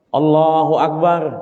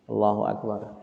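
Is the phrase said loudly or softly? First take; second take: loudly; softly. First: It is said loudly and forcefully. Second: It is said softly and quietly. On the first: The worshipper wants a visitor to know he is praying. "kenapa mendadak takbirnya kencang?" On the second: The worshipper prays with no one else around. "takbirnya pelan"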